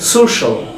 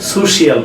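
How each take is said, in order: First: The ending is said as one syllable, shal. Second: The ending is said as two syllables, shee-al. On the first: The speaker calls it right. "We will pronounce শল" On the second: The speaker calls it wrong. "সোশিয়াল বলি আমরা"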